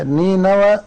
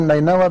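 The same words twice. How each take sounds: First: نينوى said with the first ن in kasra, as "nīnawā"; correct pronunciation. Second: نينوى said with the first ن in fatha, as "naynawā"; common pronunciation. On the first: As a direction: say نينوى opening with "ni", the classical reading. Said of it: "بكسر النون". (نينوى بكسر النون: "نِينَوى") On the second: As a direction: say نينوى opening with "nay", the way most people say it. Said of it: "العامة يقول نينوى بفتح النون". (نينوى بفتح النون كما تقولها العامة: "نَينَوى") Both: Shown as a demonstration.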